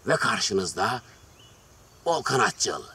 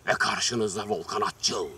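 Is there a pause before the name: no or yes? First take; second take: yes; no. First: A short pause comes before the name. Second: It runs straight on with no pause.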